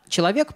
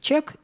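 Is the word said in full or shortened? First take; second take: full; shortened. First: The word is said in full with all syllables. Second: The word is squeezed into one short syllable. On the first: "человек прекрасно превращается в чек" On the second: "превращается в чек"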